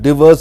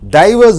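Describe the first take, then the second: First: The stress is on the second syllable. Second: The stress is on the first syllable. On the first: It is an action. "Diverse is a verb" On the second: It names a thing. "Diverse is a noun"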